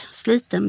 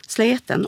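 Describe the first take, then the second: First: Said in the usual way. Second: "sleten" with a long e in place of i. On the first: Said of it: "ett E-ljud". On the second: Shown as a demonstration. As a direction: open the vowel of sliten to "sleten". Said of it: "sliten blir sleten".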